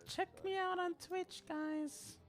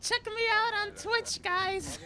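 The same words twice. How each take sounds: First: High but soft streamer plug. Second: High loud streamer plug; hype streamer voice. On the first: Retold or imitated. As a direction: lightly mimic a streamer, quietly. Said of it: "I would be like". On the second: Pretend. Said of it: "I kinda wanna be like".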